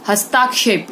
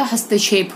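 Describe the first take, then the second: First: हस्ताक्षेप with long "taa"; mispronounced vowel. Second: Said in the usual way. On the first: Shown as a demonstration. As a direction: stretch the middle of हस्ताक्षेप to "hastaakshep". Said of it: "हस्ताक्षेप नहीं होता". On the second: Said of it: "हस्तक्षेप होता है".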